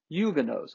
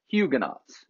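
First: The word is pronounced the French way. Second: The word is pronounced the English way.

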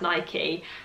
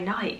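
First: The name is said the standard, official way. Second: The name is said the usual British way. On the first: This is the officially correct pronunciation. "I know that it is pronounced Nike" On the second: This is how people in the UK say it. "in the UK we just say Nike"

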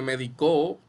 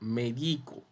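First: The stress is on the last syllable. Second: The stress is on the middle syllable. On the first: "Y también en la O" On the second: "sin tilde. Diría medico"

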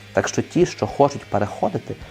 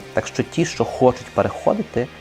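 No difference in how they are said.

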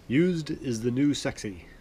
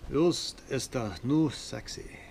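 First: It is said in the speaker's ordinary accent. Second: It is said in an imitated German accent.

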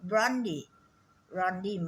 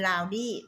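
First: The first syllable sounds like 'ron'. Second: The first syllable sounds like 'lao'. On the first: The speaker calls it right. "รอนนะ, ไม่ใช่ลาว" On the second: The speaker calls it wrong. "จะพูดผิดอยู่เรื่อยเป็นลาวดี้"

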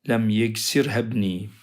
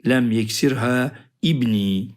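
First: The first vowel of ibni is dropped, words linked. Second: The first vowel of ibni is pronounced separately. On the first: The speaker calls it right. "vasıl hemzesi olduğu için geçiş yapıyoruz" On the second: The speaker calls it wrong. "Şöyle demeyelim. Lem yeksirha ibni demeyelim"

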